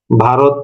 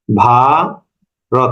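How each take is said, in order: First: Said in the usual way. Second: "ভারত" split, ভা drawn right out, then রত; very long syllable. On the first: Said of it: "ভারত যদি শব্দটার অক্ষর ইয়ে করি". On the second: Shown as a demonstration. Teacher dividing a word for students, "ভারত" hugely stretched. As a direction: hold the first vowel of "ভারত" very long. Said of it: "অনেক লম্বা".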